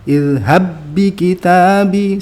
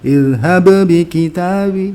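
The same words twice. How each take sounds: First: The first b merges into the second b. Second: The first b is released with a bounce. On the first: The speaker calls it right. "kita masukkan ilhab bi kitabi, seakan-akan bak yang pertama itu nggak ada" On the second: The speaker calls it wrong. "nggak usah dibaca kol-kolannya, jangan"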